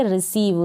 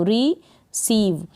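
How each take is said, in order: First: Said in the usual way. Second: रिसीव slowly split as ree, then seev; drawn-out रिसीव with a gap after the first syllable. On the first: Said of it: "इसको पढ़ेंगे रिसीव". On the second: Shown as a demonstration. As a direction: break रिसीव into two slow parts. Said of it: "एक दो बार practice करें बोलने की".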